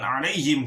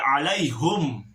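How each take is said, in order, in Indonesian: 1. Suku kata terakhir memakai vokal i, him. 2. Suku kata terakhir memakai vokal u, hum. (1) "bukan alaihim" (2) "tetapi alaihum"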